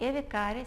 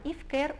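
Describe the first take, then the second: First: The name is pronounced the local Spanish way. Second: The name is pronounced the English way.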